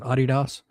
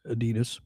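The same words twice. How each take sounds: First: The name is said the original German way. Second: The name is said the usual American way. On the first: This is how the company itself says it. "but they pronounce it Adidas" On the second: This is how most Americans say it. "most Americans say Adidas"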